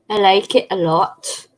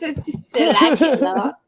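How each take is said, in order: First: Mild English accent. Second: Higher, laughing put-on posh English; fake English accent. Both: Shown as a demonstration. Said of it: "Is that your English accent?".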